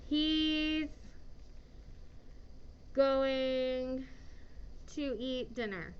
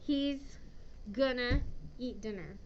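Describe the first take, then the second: First: Going to is said fully as two words. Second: Going to is reduced to one short word.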